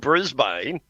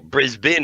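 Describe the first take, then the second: First: It is pronounced the way outsiders say it. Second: It is pronounced the way locals say it.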